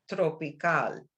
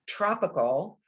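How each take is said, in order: First: The word is pronounced the Spanish way. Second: The word is pronounced the English way. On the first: "in Spanish I have to say tropical" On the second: "in English I have to say tropical"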